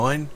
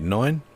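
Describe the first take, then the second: First: The voice has less bass resonance. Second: The voice has more bass resonance. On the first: "Back to the shotgun mic" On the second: "And now the studio mic"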